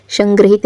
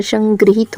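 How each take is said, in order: First: संग्रहित said as 'san-gra-hit'; short 'a' after 'gr' in संग्रहित; incorrect pronunciation. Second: संग्रहित said as 'san-gri-heet'; an 'i' after 'gr' in संग्रहित; corrected pronunciation. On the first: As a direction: say संग्रहित with 'gra' in the middle. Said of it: "नहीं होता है". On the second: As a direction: say संग्रहित with 'gri' in the middle. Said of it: "होता है". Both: Shown as a demonstration.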